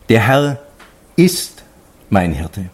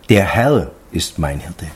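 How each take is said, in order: First: The stress falls on the word ist. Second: The stress falls on the word Herr. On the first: It truly is so, despite all doubts. "gegen alle Zweifeln ... dieses Ausrufezeichen zu setzen" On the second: It is this great Lord who is the shepherd. "Also der Herr, der das alles gemacht hat"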